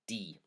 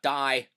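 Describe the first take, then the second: First: The vowel sounds like Pennsylvania Dutch, not English. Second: The vowel sounds like the English word. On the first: The speaker calls it right. "the feminine is die" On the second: The speaker calls it wrong. "not die, ... Get out of your English thinking mindset"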